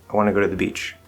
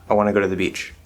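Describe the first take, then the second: Both takes have the same delivery.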